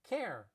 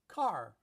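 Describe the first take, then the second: First: Chicago accent, with a fronted vowel. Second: Los Angeles accent, with the final r pronounced. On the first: "In Chicago, it's care" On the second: "I pronounce the R"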